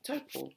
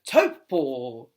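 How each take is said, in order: First: The word is said in a plain, relaxed way. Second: The word is said in a big, exaggerated way. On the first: The name is said naturally in everyday speech. The speaker calls it right. "You can just say" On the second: The speaker is self-consciously correcting their pronunciation. The speaker calls it wrong. "it was coming out very theatrically, like"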